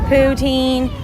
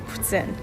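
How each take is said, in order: First: It is said the way non-Quebecers say it. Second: It is said the way Quebecers say it. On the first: "anyone who has not grown up close to Quebec... we'll call it poutine" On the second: "anyone who grew up in Quebec or near Quebec, like I did, um, it's poutine"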